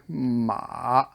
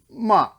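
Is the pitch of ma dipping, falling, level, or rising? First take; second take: dipping; falling. First: The pitch dips low, then comes up. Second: The pitch falls sharply from high. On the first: "the shovel, dig" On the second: "the chop"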